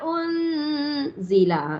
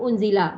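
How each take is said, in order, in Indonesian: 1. Bunyi n ditahan dengan dengung sengau. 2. Bunyi n diucapkan biasa, tanpa dengung. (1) "Dengung tu" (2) "tak dengung"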